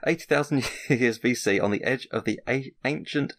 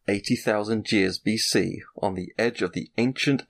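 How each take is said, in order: First: It is read in an ordinary speaking voice. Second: It is read in a dramatic movie-trailer voice. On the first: "I can't do it in that voice" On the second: "I'm just going to read out in my best film voice"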